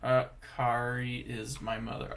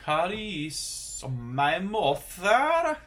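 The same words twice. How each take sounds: First: Said in the usual way. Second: English said slowly with a mock Norwegian lilt, higher and louder; Norwegian accent. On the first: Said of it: "I keep saying the English with the Norwegian accent". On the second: Learner slips into a Norwegian accent on English words. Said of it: "saying the English with the Norwegian accent".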